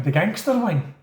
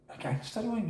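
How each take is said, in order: First: Said in the usual way. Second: Much softer, higher questioning echo; puzzled echo. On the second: Retold or imitated. New prisoner to officer about the wing, quietly puzzled. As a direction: repeat it back quietly, unsure what it means. Newcomer echoes it, taken aback.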